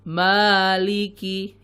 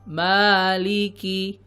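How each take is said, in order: The two takes are said the same way.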